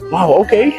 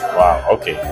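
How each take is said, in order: First: It sounds supportive and encouraging. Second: It sounds sarcastic and mocking.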